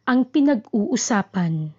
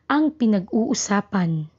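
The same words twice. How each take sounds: Both takes have the same delivery.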